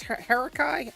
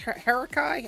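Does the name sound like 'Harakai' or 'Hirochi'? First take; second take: Harakai; Harakai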